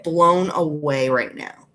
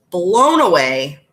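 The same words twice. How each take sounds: First: Said in the usual way. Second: "Blown away" stretched out slow and loud; emphatic amazement. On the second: Real, not acted. Streamer raving about eyeshadow, "Blown away" slow, loud, emphatic. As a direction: draw out "Blown away" with a big swell.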